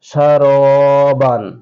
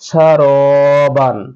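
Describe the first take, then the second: No difference in how they are said.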